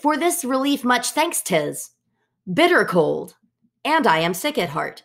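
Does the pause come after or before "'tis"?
after. The pause comes after "'tis".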